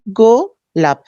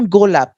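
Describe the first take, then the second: First: গোলাপ broken in two, "go... lap", first part drawn out; split into syllables. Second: Said in the usual way. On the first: Shown as a demonstration. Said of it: "কয় ভাগে ভেঙে আমরা উচ্চারণ". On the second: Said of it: "দেখেন একটা শব্দ".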